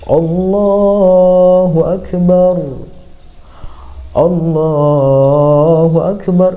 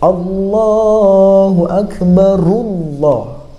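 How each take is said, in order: First: The phrases are split by a pause. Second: The phrases run together without a pause. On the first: "di diputus" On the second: "langsung masuk ke lam"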